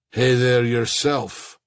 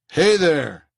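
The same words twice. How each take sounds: First: Slow, lightly voiced Middle Eastern accent; a hint of a Middle Eastern accent, drawn out slowly. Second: Said in the usual way. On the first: A narrator's reading. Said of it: "the painter said in a Middle Eastern accent". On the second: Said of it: "Davis said".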